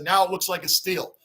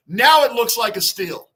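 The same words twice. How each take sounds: First: Said in the usual way. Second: Louder, punching "Now" with a falling end; emphatic repeat. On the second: Real, not acted. Host insisting to chat the signing was a steal, emphatic. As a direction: hammer the point home.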